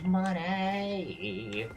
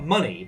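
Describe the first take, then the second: First: The word is said in a nasal, odd voice. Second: The word is said in a plain, normal voice.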